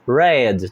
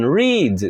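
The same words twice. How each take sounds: First: It is said with the past-tense pronunciation. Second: It is said with the present-tense pronunciation. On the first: Read, in the past. "a escrita é a mesma, mas a pronúncia vira read" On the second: To read, in the present. "que é read mesmo? Ah, é ler"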